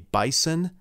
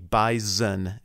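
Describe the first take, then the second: First: The middle consonant is a hissing S sound. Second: The middle consonant is a buzzing Z sound. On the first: The speaker calls it wrong. "you are wrong" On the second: The speaker calls it right. "as though there's a Z in it"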